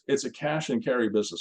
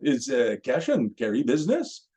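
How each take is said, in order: First: It is said in the speaker's usual accent. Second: It is said with a French accent.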